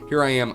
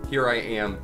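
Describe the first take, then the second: First: The voice is recorded about one foot away. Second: The voice is recorded about two feet away. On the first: "a foot away" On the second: "two feet away"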